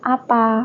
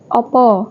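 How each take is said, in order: First: The word is said with A vowels. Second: The word is said with O vowels. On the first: This is how people in Bawang say it. "kalau di Bawang itu tuh pakainya A" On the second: This is how people in Batang town say it. "Batang Kota itu kan pakainya O ya"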